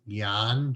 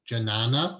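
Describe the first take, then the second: First: It is one short syllable starting with 'gy'. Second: It is read as spelled, starting with 'j'. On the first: The speaker calls it right. "The way to pronounce that word is Gyan" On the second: The speaker calls it wrong. "which is totally not how to pronounce it"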